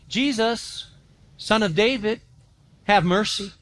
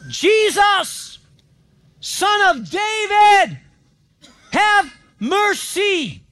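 First: It is said quietly and plainly. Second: It is shouted loudly.

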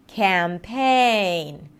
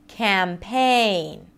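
The two takes are said the same way.

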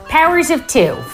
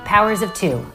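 First: It is said too loudly. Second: It is said more quietly.

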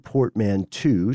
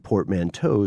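First: The last syllable sounds like 'two'. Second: The last syllable sounds like 'toe'. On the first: "portmanteau spelled T-W-O" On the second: "portmanteau spelled T-O-W"

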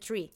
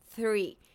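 First: It is said the Irish way, like tree. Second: It is said with a standard th sound.

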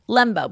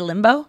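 First: The first vowel sounds like 'eh'. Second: The first vowel sounds like 'ih'. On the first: "So it's Lembo, right?" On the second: "but you say Limbo? ... Like L-I"

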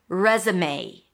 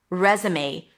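Both takes have the same delivery.

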